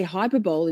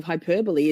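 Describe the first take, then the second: First: Hyperbole said as "hyper-bowl"; mispronounced hyperbole. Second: Hyperbole said "hy-PER-buh-lee"; four syllables in hyperbole, stress on PER; correct hyperbole. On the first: Confessing a reading mistake, hyperbole as "hyper-bowl". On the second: Admitting the proper form, hyperbole as "hy-PER-buh-lee". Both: Shown as a demonstration. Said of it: "instead of hyperbole".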